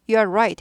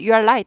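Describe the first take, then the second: First: The last word begins with an R sound. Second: The last word begins with an L sound. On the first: It means the listener is correct. The speaker calls it right. "해야지" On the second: It sounds like calling the listener light. The speaker calls it wrong. "어 내가 빛인가?"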